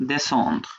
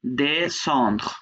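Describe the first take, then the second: First: Said in the usual way. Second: "Descendre" drawn out as de, then sandr; syllable by syllable. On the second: Shown as a demonstration. Teacher showing each syllable, "Descendre" split into de and sandr. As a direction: model "Descendre" with a held, separate first syllable. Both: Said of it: "এটা একটা syllable".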